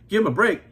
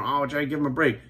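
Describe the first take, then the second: First: Scornful retort. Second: Mocking defenders. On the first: Real, not acted. Answering his viewers, a scornful louder "break". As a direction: break thrown back louder and sharper, rising at the end. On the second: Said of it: "So many people sticking up for".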